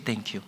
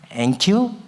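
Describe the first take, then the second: First: The word begins with a consonant sound. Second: The initial consonant is dropped entirely.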